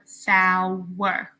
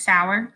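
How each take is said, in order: First: Sauer split into two drawn-out syllables, "Sau-er". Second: Said in the usual way. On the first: Shown as a demonstration. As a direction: stretch Sauer slowly so both syllables show. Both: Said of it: "pay attention to how often your chin drops".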